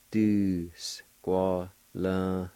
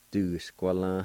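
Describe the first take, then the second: First: "Du squalin" stretched out very slowly; slow syllabified. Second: Said in the usual way. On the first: Shown as a demonstration. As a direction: drag out every part of "Du squalin". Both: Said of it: "It's pronounced like this".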